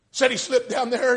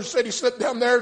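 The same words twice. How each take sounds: First: High, loud preached line; preaching refrain. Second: High, loud preached line; preaching refrain again. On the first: Preacher driving the story home, refrain. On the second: Preacher repeating to his listeners, preaching refrain. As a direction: drive the refrain home once more. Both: Acted.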